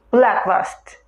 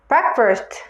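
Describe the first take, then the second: First: "breakfast" said with L for R, like "blackfast"; learner's "blackfast" for "breakfast"; mispronounced breakfast. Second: "breakfast" with a clear English R; correct R in breakfast. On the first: Retold or imitated. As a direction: slowly say "breakfast" with the tongue touching for an L. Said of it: "breakfast라고 발음한다는". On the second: Shown as a demonstration. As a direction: say "breakfast" with the tongue clear of the palate on R. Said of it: "R 발음은 여러분 혀가 입천장에 닿지 않게".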